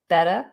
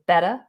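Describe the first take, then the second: First: The t sounds like a soft d. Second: The same.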